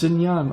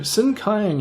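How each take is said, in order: First: It starts with sh and has a j sound. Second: It starts with s and has a hard k. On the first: It is the familiar modern name. "oh, it's Xinjiang" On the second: It is read from an old spelling. "I always go Sinkiang"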